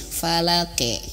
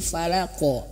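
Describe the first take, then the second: First: The final bounce sounds thin, like 'e'. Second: The final bounce sounds full, like 'o'. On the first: The speaker calls it wrong. "qaf itu pantulannya itu ke e, tipis ya" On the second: The speaker calls it right. "bukan tapi falako ko gitu"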